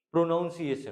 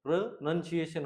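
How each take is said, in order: First: प्रोनाउंसिएशन said with "naun" like pronounce; the common mistake, "pro-NOUN-ciation"; wrong pronunciation. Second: प्रोनंसिएशन said with a short "nun", pro-nun-ci-a-tion; the right form, "pro-nun-ciation"; correct pronunciation. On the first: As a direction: stress the "naun" sound in प्रोनाउंसिएशन. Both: Shown as a demonstration. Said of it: "प्रोनाउंसिएशन नहीं होगा".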